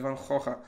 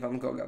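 First: The name is said with a Dutch pronunciation. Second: The name is said with a Polish pronunciation. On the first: The speaker calls it right. "po holendersku powinno się prawidłowo" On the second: The speaker calls it wrong. "a nie"

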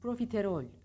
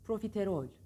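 The two takes are said the same way.

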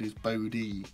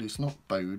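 First: The name ends with a sounded final vowel. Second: The name ends without a sounded final vowel. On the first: The speaker calls it right. "Because it's got the doodad over the name" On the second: The speaker calls it wrong.

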